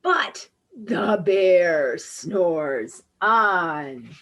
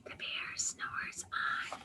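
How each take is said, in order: First: Drawn-out, heavy storybook refrain; slow refrain. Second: Hushed whisper so the bear stays asleep. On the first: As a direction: stretch each word slowly. Refrain, bear keeps sleeping. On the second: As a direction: breathe the words without voice. Bear asleep, reading softly. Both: A narrator's reading.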